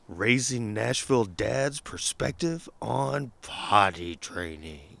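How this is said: It is said in a dramatic movie-trailer voice.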